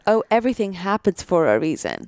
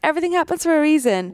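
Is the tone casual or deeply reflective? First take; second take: reflective; casual. First: It is said slowly with deep realization. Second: It is said lightly and casually.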